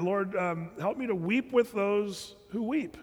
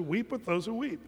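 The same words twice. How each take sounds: First: Prayer. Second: Said in the usual way. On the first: Pretend. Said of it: "the Lord reminded me". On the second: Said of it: "what the Bible says".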